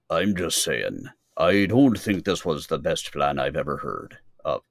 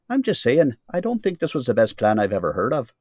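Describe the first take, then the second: First: The line is spoken in a lower voice. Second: The line is spoken in a higher voice. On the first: The speaker calls it wrong. "Oh no" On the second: The speaker calls it right. "Antioch Bell was a higher voice"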